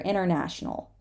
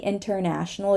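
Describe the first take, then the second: First: The T is held, not released. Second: The T is fully released. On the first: "we just very often hold the T here" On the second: "you can say international. It's not going to be a mistake"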